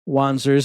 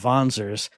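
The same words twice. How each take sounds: First: The word begins with a W sound. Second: The word begins with a V sound. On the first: The speaker calls it wrong. "or Wanzers if you didn't know that it was supposed to be a V sound" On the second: The speaker calls it right. "it was supposed to be a V sound"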